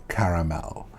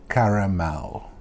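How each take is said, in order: Both takes have the same delivery.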